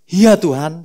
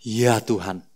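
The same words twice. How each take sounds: First: Mock tearful. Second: Said in the usual way. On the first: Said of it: "sambil nangis-nangis Petrus".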